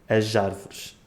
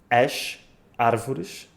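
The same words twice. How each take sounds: First: The s sounds like zh, linked to the vowel. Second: The s sounds like sh, words kept apart. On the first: Some accents use this form. "Certos sotaques fazem com o som j" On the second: The word is read on its own. "a palavra sozinha lê-se sh"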